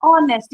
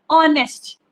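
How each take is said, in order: First: ऑनेस्ट again as onest, firm, no h; silent h, repeated. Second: ऑनेस्ट said as onest, no h sound; silent h. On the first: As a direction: insist on ऑनेस्ट without h. (ऑनेस्ट, एच silent, ज़ोर देकर) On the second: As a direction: drop the h in ऑनेस्ट. (ऑनेस्ट बिना एच की आवाज़ के) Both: Shown as a demonstration. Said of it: "हम हॉनेस्ट नहीं पढ़ रहे".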